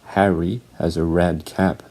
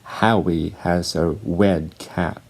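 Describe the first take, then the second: First: The R sounds are said as clear R. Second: The R sounds are said like W.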